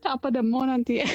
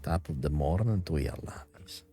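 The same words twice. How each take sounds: First: Playful Irish leprechaun greeting; Irish leprechaun accent. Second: Put-on soft lilting Irish leprechaun accent; Irish greeting in leprechaun accent. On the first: Acted. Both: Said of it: "talk like a leprechaun".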